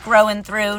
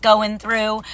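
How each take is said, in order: First: "growing" picked out, at usual pitch and volume; stress on growing. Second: "going" set apart slowly as the rejected word; slow down on "going" to contrast it; contrastive stress on going. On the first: Speaker pointing out a word choice, stress on "growing". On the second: Speaker correcting the expected phrase, slow stress on "going". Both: Shown as a demonstration. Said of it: "Notice I said growing through".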